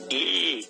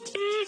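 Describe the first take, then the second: First: It sounds flirty. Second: It sounds terrified.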